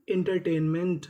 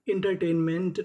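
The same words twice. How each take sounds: The two takes are said the same way.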